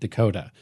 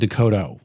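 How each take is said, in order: First: It sounds like the state name Dakota. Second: It sounds unlike the state name Dakota. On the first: This is how the speaker himself says it. "I pronounce it like the state" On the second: This is the original form of the name. "but it's actually"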